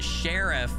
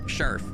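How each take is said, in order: First: The word is carefully over-enunciated in standard form. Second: The word is said loosely in a regional rural way. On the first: This is the standard pronunciation. The speaker calls it right. "how you pronounce it correctly. I'm over enunciating it a little bit" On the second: This is how the family says it. The speaker calls it wrong. "My family would just say sheriff"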